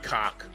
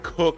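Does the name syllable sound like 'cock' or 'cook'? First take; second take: cock; cook. First: The vowel is open, like in 'cock'. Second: The vowel is rounded, like in 'cook'. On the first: The speaker calls it wrong. "I might be saying it wrong. It's not cock" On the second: The speaker calls it right. "It's like cook or something like that"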